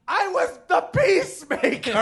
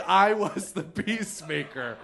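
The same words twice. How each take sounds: First: High, loud laughing scream of outrage; screaming indignantly through laughter; retold scream. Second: Laughing repeat. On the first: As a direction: yell it at the guy in the upper deck. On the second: Retold or imitated. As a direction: say it again, laughing at yourself. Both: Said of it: "I screamed".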